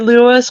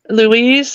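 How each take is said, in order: First: The name sounds like the name Lewis. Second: The name sounds like the girl's name Louise. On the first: This is how the speaker says it. "but I say Lewis" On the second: This is how the name's owner says it. "He he says is he pronounces it as uh"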